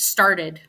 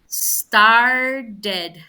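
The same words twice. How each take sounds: First: The word is said at a normal pace. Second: The word is said slowly and drawn out.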